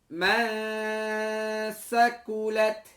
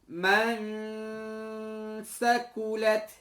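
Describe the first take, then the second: No difference in how they are said.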